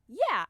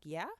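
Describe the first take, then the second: First: YEAH said with a falling tune; a sure, falling YEAH; affirming yeah. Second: YEAH with a rising, unsure tune; questioning yeah. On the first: Idol answering the fan, falling YEAH. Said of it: "He was just like". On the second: Fan unsure he means her, questioning YEAH. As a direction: ask YEAH as a disbelieving question. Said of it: "And I'm like". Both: Retold or imitated.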